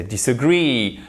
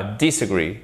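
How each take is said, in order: First: Disagree with the stress on a long final "GREE"; correct final stress. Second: DISagree, wrongly stressed on the first syllable; misplaced stress. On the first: English teacher corrects learners, stress on the last syllable. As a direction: lean on the last syllable of disagree and let it fall. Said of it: "c'est disagree". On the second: English teacher shows learners the mistake, misplaced stress. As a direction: say disagree with the weight thrown onto "dis". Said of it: "Et c'est pas disagree". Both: Shown as a demonstration.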